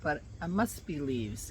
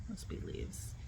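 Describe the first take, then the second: First: Said in the usual way. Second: Breathy whisper, almost to herself; whispered to self. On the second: Real, not acted. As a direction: whisper it under your breath. Repeats to herself, nervous.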